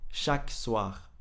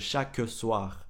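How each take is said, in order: First: The E in chaque is dropped. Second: The E in chaque is pronounced. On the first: "On dit chaque soir" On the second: "au lieu de chaque soir"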